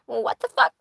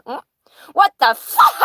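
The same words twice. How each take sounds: First: Small parrot voice, not yet screaming; restrained bird impression at ordinary volume; parrot imitation. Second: High, loud parrot scream; shrieked bird impression, far above normal pitch; screaming parrot imitation. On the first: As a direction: mimic the parrot with laughter creeping in. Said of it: "and he says". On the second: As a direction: mimic a parrot suddenly screaming the phrase. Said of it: "And he just screams it".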